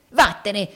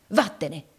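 First: Louder, sharp dismissal; forceful, irritated command; angry order. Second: Said in the usual way. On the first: A narrator's reading. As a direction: order her out with rising temper. Repeated order, losing his temper.

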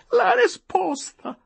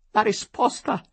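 First: Much higher, louder and slow repeat; full outburst. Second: Higher, louder outburst that starts the demand; the first cry of the demand; bursting out. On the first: Tearful wife demands the answer, shrieking it out. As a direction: scream the demand the second time. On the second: Tearful wife demands the answer, bursting out. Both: A narrator's reading. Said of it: "proruppe subito donna Adelaide".

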